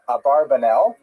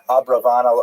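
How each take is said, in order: First: The name has 'bar-ba' with a b in the middle. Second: The name has 'bra-va' with a v in the middle. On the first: This is the popular form that fits a song. The speaker calls it wrong. "many people pronounce the same uh, Abarbanel" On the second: This is the likely historical form. The speaker calls it right. "but it's most likely uh, pronounced Abravanel"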